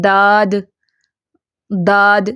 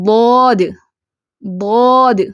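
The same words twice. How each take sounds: First: داد said with a plain light d; داد as a thin dental d, the common mistake; mispronounced ḍād as d; wrong dāl-like ḍād. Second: ضاد said full and heavy, held a little; ضاد with a thick, mouth-filling ḍ; proper Arabic ḍād; correct ḍād. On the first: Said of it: "کیسے پڑھتے ہیں؟". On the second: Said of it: "کیسے پڑھیں گے؟". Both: Shown as a demonstration.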